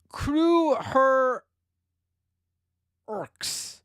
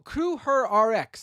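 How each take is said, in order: First: The ending is said as the word orcs. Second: The ending is said as letters R X. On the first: The speaker calls it wrong. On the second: The speaker calls it right.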